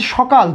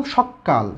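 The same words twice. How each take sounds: First: Said in the usual way. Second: "সকাল" with a long, doubled k, falling low; emphatic doubled consonant. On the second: Shown as a demonstration. Teacher shows how "সকাল" changes for emphasis, doubled k. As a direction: hold the k in "সকাল" before releasing it. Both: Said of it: "জোর দেওয়ার জন্য কী করলাম".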